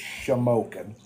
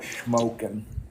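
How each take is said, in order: First: The name is said in three syllables. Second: The name is said in two syllables. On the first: The speaker calls it right. "It's shamokin" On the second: The speaker calls it wrong. "you're not saying it right. It's not smoking"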